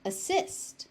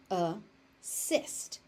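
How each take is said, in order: First: Said in the usual way. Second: "Assist" split as a... sist; syllable by syllable. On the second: Shown as a demonstration. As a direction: say "Assist" in two separated syllables. Teacher breaks word into syllables.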